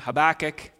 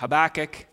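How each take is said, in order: First: The name is said in a familiar English pronunciation. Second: The same.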